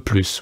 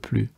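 First: The final s sound is heard. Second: The final s sound is silent. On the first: It means more. "that you have to pronounce the S" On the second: It means not anymore. "you have to not pronounce the S"

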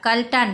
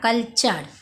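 First: The last syllable starts with a 't' sound. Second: The last syllable starts with a 'ch' sound. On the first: The speaker calls it wrong. "কালটার না" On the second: The speaker calls it right. "যেখানে TURE দেখবে সেখানে তোমরা চ উচ্চারণ করবে"

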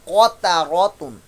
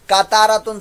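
First: The first consonant is heavy and full. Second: The first consonant is light and thin. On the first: The speaker calls it right. "काफ को आपने पुर मोटा नहीं किया" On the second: The speaker calls it wrong. "कातारा तुन सिंपल पढ़ दिया तो ये लहने जरिया होगी"

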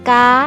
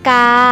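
First: The syllable is said in the tri tone. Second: The syllable is said in the saman tone. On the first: "กาไม้ตี" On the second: "เสียงนี้เป็นเสียงสามัญนะคะ"

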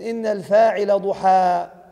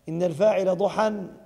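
First: The last word ends on a long vowel, no n. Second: The last word ends with an added n sound. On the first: It says what the doer is, a complete statement. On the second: It says the doer acted in the forenoon, an incomplete statement.

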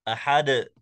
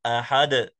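First: The final d is released with an echoing bounce. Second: The same.

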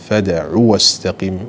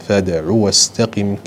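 The two takes are said the same way.

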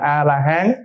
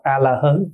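First: The last syllable has an 'a' vowel. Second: The last syllable has an 'o' vowel. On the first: The standard reading of the term. "đọc là A-la-hán" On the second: The customary reading taught by the elders. "các cụ dạy là đọc A-la-hớn"

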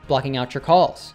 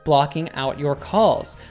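First: The t and y blend into a ch sound. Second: The t and y are said as separate sounds.

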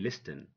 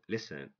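First: The 't' sound is pronounced in the middle. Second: The 't' sound is silent in the middle. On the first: The speaker calls it wrong. "Don't say listen" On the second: The speaker calls it right. "No. Listen"

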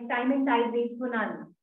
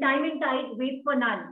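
First: It is said flatly, without variation. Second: It is said with lively vocal variety.

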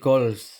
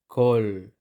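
First: A final s sound is pronounced. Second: The final s sound is silent. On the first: The speaker calls it wrong. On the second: The speaker calls it right.

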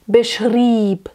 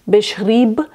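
First: The final consonant is hard and unvoiced. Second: The final consonant is soft and voiced. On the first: The speaker calls it right. "It's a little bit hard" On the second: The speaker calls it wrong. "So it's not lieb, beschrieb"

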